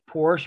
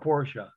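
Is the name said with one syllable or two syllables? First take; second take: one syllable; two syllables. First: The name is said with one syllable. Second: The name is said with two syllables. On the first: "One syllable" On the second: "or two"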